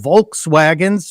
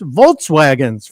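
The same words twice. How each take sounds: First: The first syllable is said as 'volk'. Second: The first syllable is said as 'volt'.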